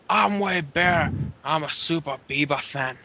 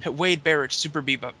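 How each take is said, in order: First: Attempted British accent that slips into Scottish; Wade Barrett. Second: Said in the usual way. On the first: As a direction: have a go at a British wrestler's accent, landing near Scottish. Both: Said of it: "That, that sounded Scottish".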